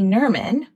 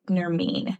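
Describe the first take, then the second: First: The name ends with a short vowel, like vermin. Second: The name ends with a long ee vowel. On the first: The speaker calls it wrong. "Nerman just sounds like vermin" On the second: The speaker calls it right. "it's spelled like vermin, but it said Nermeen"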